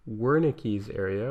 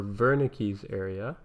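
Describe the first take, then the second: First: Said in the usual way. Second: "Wernicke's" with a V sound at the start; German-style "Wernicke's", opening on V; German pronunciation. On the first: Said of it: "the true German pronunciation". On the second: Shown as a demonstration. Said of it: "use the true German pronunciation".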